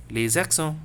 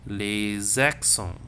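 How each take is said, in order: First: Said in the usual way. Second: Very slow "Les accents", drawn out as lay-zak-son; stretched liaison. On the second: Shown as a demonstration. Teacher models the Z sound for students, slow liaison. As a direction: stretch each syllable, linking with a Z. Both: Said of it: "Z sound".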